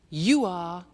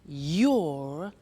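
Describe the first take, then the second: First: It is said as two full words. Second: It is said as one contracted syllable.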